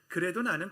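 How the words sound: It is read in a childlike, expressive way. "어린아이처럼 읽어"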